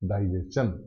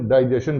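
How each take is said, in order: First: The ending is said with a 'chun' sound. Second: The ending is said with a 'shun' sound. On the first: This is the dictionary pronunciation. The speaker calls it right. "वो उच्चारण करता है उसका डाइजेशन" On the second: This is how people commonly say it. The speaker calls it wrong. "ज्यादातर mostly हम डाइजेशन कहते हैं"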